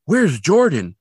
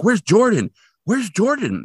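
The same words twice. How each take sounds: First: Higher, louder worried call, lightly acted; mild mock worry. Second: Imitated worried cry, pitched much higher; mock urgent fear. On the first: Recapping worried Catherine looking for Jordan, mildly urgent. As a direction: imitate a mother starting to worry. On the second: Recapping Catherine repeatedly calling for Jordan, urgent mock alarm. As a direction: act out a mother's growing alarm. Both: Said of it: "every time she sounds more urgent and fearful".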